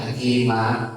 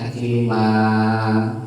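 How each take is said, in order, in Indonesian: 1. Vokal akhir diakhiri hentian glotal yang tajam. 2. Vokal akhir dipanjangkan. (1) "Jangan juga ditekan hakiman. Tidak ada huruf hamzah di sini" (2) "Jangan juga dipanjangkan hakiman. Tidak, dua harokat saja"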